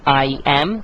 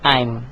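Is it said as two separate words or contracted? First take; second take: separate; contracted. First: It is said as two separate full words. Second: It is said as one joined contracted word. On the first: "नंबर वन" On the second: "इसकी contracted form जो होगी वो होगी"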